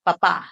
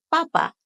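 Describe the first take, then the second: First: Papá with the final á held longer; held last syllable. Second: Papa with two short, equal syllables; even quick syllables. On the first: Teacher contrasting dad with potato, papá end-stressed. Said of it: "holding that last syllable for an extra beat". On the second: Teacher contrasting potato with dad, papa short and even. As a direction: say papa quickly, no held ending. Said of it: "and say them quick". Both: Shown as a demonstration.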